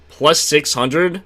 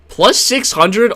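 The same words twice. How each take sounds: First: Said in the usual way. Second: Much higher, louder disbelieving question; slow and shocked at the number; surprised. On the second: Real, not acted. Shocked rereading of betting odds.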